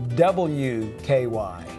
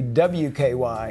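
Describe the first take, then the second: First: The letter W is said fully and carefully. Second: The letter W is said in a clipped, sloppy way. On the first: The speaker calls it right. "he would say W K Y" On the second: The speaker calls it wrong. "he would not say W K Y"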